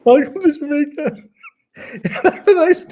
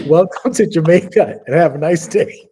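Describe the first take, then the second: First: Squeaky high voice, much louder; falsetto punchline. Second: Jamaican greeting, louder and higher; punchline voice. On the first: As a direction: sing it out in a silly high voice. Repeats punchline in put-on voice. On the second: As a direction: deliver it like a tourist slogan. Penis tattoo reads punchline. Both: Retold or imitated.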